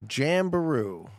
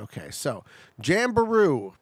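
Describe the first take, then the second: First: "Jamberoo" drawn out slowly, syllable by syllable; slow sounding out. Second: Said in the usual way. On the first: Shown as a demonstration. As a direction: sound out "Jamberoo" slowly, like reading an unfamiliar sign.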